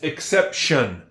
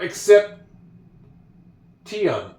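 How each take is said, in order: First: The ending is said as 'shun'. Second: The ending is not said as 'shun'. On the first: The speaker calls it right. "It's exception" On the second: The speaker calls it wrong. "It's not except Tion"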